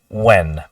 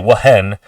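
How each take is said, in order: First: The word begins with a plain w sound. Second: The word begins with a breathy h sound. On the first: The speaker calls it right. "you just say when" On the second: The speaker calls it wrong. "You don't say when"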